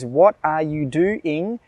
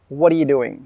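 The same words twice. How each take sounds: First: Each word is said clearly and separately. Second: The words are run together with linked sounds. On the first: "when the phrase" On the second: "turns into"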